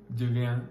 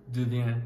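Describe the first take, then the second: Both takes have the same delivery.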